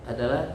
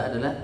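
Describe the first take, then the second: No difference in how they are said.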